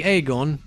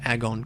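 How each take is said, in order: First: "Agon" said as AY-gon, long a; alternative pronunciation. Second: "Agon" said the speaker's habitual way, AG-on with short a; usual pronunciation. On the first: Player offering another possible reading, "Agon" as AY-gon. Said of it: "Could be Agon". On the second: Player giving their assumed name for the wastes, "Agon" as AG-on. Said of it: "I've always assumed it's pronounced". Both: Shown as a demonstration.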